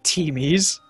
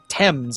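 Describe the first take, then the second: First: The name is said as 'teemies', two syllables. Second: The name is said as 'tems', one syllable. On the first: The speaker calls it wrong. "Not Teamies" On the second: The speaker calls it right. "It's like Thames, I think"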